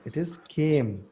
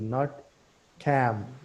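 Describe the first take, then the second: First: The vowel is a long 'ay' sound. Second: The vowel is a short 'a' as in 'am'. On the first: The speaker calls it right. "It is came. A, not a की मात्रा" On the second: The speaker calls it wrong.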